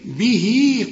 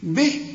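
First: The final vowel is lengthened into the next word. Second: The word ends short with no lengthened vowel. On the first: The reader continues into the next word. "الياء الصغيره اللي بعد الهاء علشان إذا وصلت" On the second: The reader pauses after the word. "به اذا وقفت"

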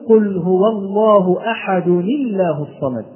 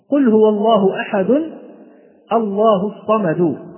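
First: The tanween nun carries an i vowel, linking on. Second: The tanween nun is said without a vowel. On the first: This is how it is read when joined. "فإذا وصلنا نقول" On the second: This is the underlying form before joining. "فكان أصلها"

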